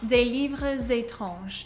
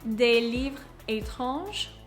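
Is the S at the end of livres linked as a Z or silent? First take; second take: linked Z; silent. First: The S of livres links as a Z. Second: The S of livres is silent before étranges. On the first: "the S is going to sound like the Z" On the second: "without the liaison"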